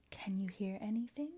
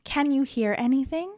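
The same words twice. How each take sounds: First: Whispered echo of the line; faint echo. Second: Said in the usual way. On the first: Acted. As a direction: repeat it as a soft distant echo. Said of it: "we have an echo in here". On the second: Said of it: "echo repeats it".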